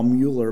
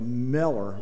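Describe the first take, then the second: First: The name is said the usual American way. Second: The first vowel sounds like 'eh', as in 'Meller'. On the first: This is the Americanized form of the name. "which we call Mueller" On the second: This is how the man himself said his name. "he always pronounced it more like Meller"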